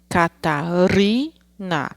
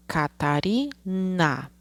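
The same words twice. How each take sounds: First: Catarina drawn out very slowly, leaning on ri; slow teacher sounding-out of the middle syllable; slow syllable-by-syllable reading. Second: Catarina said slowly and softly, ca-ta-ri-na; slow, soft teacher sounding-out; slow syllable-by-syllable reading. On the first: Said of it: "A sílaba do meio é o ri". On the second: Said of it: "a última sílaba de Catarina é o na". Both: Shown as a demonstration.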